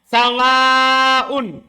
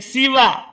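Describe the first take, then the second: First: The s carries an a vowel, ending long. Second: The s carries a short i vowel. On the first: "dibaca mat panjang... di fathah sinnya" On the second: "Dan di kasro sinnya"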